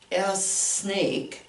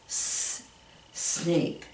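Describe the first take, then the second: First: The letter name comes before the word. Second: A hissed S sound comes before the word. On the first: The speaker calls it wrong. "I don't say s snake" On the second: The speaker calls it right. "I say s s s s"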